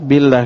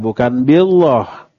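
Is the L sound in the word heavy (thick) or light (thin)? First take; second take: light; heavy. First: The L sound is thin and light. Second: The L sound is thick and heavy. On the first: The speaker calls it right. "Karena sebelumnya kasrah" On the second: The speaker calls it wrong.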